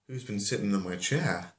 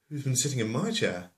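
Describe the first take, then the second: First: Said in the usual way. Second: Higher pitch with emphasis on MY; stress on MY. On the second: Acted. Second bear asking about the chair, indignant weight on MY. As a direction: lean on MY, as the offended owner.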